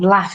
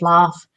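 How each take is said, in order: First: It is said in a northern English accent. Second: It is said in a southern English accent. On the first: This is how someone from the north says it. "and laugh" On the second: This is how someone from the south says it. "instead of laugh"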